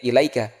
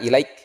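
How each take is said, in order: First: The word ends with a final vowel. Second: The word ends on a bare consonant. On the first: The reciter carries on without stopping. "tidak ada tanda-tanda seperti ini, maka kita sebutnya ilaika" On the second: The reciter stops at this point. "sudah dikasih tanda ilaik, sudah mulai ada tanda-tanda berhenti"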